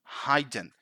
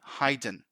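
First: The first vowel sounds like the vowel in 'hide'. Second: The first vowel sounds like the vowel in 'hide'.

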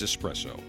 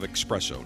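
First: The word is said with a plain 's' sound. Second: The word is said with a 'ks' sound. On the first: The speaker calls it right. "you must correct them. It is espresso" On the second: The speaker calls it wrong. "People say, I'll have a cup of espresso. No, there's no X in espresso"

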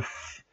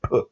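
First: The sound hisses between teeth and lip. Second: The sound bursts out from closed lips. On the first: "that is the fricative pronunciation" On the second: "that's the explosive pronunciation"

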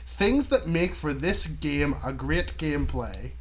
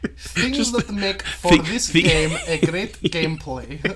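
First: It is read in the speaker's normal accent. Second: It is read in a put-on Russian accent.

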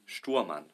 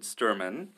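First: The name is said with its original pronunciation. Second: The name is said with an American pronunciation. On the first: The speaker calls it right. "the proper pronunciation would be Stuhrmann" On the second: The speaker calls it wrong. "most Americans, they pronounce it Stuhrmann"

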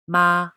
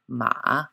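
First: The pitch stays level and high. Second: The pitch dips low then comes back up. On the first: "The first tone, ma, a flat note" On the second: "Third tone, ma, a dipping note"

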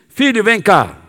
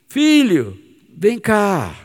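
First: It is said in a stern, harsh tone. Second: It is said in a warm, gentle tone.

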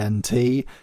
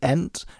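First: It is spelled out letter by letter. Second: It is said as a single word. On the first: It names a type of doctor. The speaker calls it wrong. "and not the ENT, because that's a type of doctor" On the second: It names the product. The speaker calls it right. "people call it the ENT"

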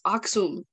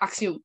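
First: The word is pronounced the native way. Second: The word is pronounced an outsider's way. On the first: The speaker calls it right. "it's Aksum" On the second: The speaker calls it wrong. "he was saying like Aksum"

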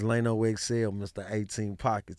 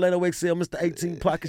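First: It is said in his normal speaking voice. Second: It is said in a put-on radio-DJ voice.

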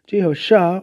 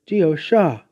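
First: The name is said with an audible H sound. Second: The name is said without any H sound. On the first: "pronounced with or without the H" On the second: "pronounced with or without the H"

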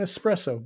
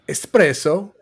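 First: It is said with an English accent. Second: It is said with an Italian accent. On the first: "you can say that with an English accent and it's fine" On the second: "I don't go to Starbucks and order an espresso"

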